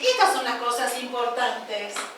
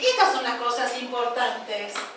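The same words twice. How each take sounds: First: It is said in a rousing, motivating way. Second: It is said in a rousing, motivating way.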